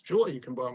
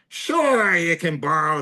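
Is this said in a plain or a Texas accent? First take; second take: plain; Texas. First: It is said in the speaker's ordinary accent. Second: It is said in a put-on Texas accent.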